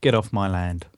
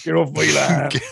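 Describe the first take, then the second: First: West Country farmer growl, Get off my land; grumpy rural West Country accent. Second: Louder, higher West Country farmer shout; hammed-up rural West Country yokel; West Country accent. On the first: Acted. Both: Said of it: "You can't do that in a West Country accent".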